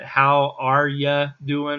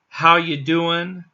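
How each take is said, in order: First: The word 'are' is clearly said. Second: The word 'are' is left out.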